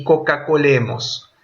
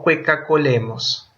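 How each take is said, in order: First: "coca-colemos" with a plain o in co. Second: "cueca-colemos" with ue in the first syllable; false diphthong. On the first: Teacher jokes with students, "coca-colemos" with plain o. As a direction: say "coca-colemos" starting KO, no glide. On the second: Teacher jokes about overdone diphthongs, "cueca-colemos" with a ue glide. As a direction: say "cueca-colemos" starting KWEH. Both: Shown as a demonstration. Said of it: "que no cueca-colemos".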